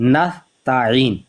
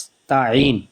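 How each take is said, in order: First: The s sound is soft without hissing. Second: The s sound is sharp and hissing. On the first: The speaker calls it wrong. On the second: The speaker calls it right.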